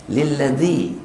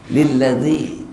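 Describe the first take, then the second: First: The consonant is a dh sound. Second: The same.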